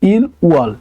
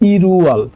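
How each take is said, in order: First: Two separate syllables, il then wol. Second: The l links into the next syllable. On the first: The speaker calls it wrong. "এটা কিন্তু যখন আপনি একসাথে বলবেন, ... তখন কিন্তু উচ্চারণটা এমন হবে না" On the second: The speaker calls it right. "দুইটা যখন আপনি একসাথে উচ্চারণ করবেন তখন কিন্তু এটা উচ্চারণ হবে ইরুয়াল"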